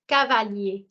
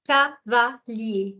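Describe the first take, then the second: First: Said in the usual way. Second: Cavalier drawn out slowly as ca-va-lier; slow syllable by syllable. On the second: Shown as a demonstration. Teacher slowly splitting Cavalier into syllables for students. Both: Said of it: "ca is the first syllable".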